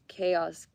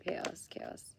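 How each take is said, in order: First: Said in the usual way. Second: Whisper. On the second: Real, not acted. Repeats the word, then whispers it.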